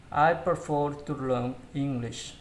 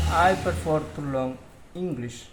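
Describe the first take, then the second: No difference in how they are said.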